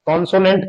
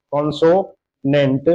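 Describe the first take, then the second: First: Said in the usual way. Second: consonant slowly in two parts, कॉन्सो, then नेंट; split into syllables. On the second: Shown as a demonstration. Teacher breaking a word up for students, consonant split slowly before नेंट. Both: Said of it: "इस शब्द को हम दो बार में बोल रहे हैं".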